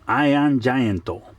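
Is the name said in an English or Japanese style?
Japanese. It is said Japanese-style with an added final vowel. "in Japanese, they pronounce it Iron Gianto"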